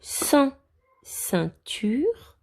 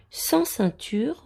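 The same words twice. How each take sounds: First: Said in the usual way. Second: "Sans ceinture" read slowly and higher; slow emphatic reading. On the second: Shown as a demonstration. Teacher reading a phrase slowly and clearly to the children.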